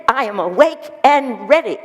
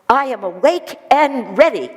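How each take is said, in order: Both takes have the same delivery.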